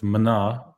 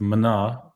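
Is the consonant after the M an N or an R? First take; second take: N; N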